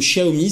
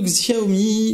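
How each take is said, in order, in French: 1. Le nom se prononce à la chinoise. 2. Le nom se prononce à la française. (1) "à la chinoise" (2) "à la française"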